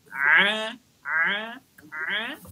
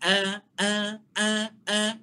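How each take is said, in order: First: Each a is pressed from the mid-throat. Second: Each a is light without throat pressure. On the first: The speaker calls it right. "kita tekan pada bahagian tengah tekak kita" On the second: The speaker calls it wrong. "itu bunyi ringan"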